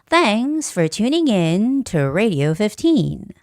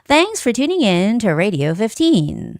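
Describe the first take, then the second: First: It is read at a slower pace. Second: It is read at a faster pace. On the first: "The first one is the slower version" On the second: "now this is a faster version"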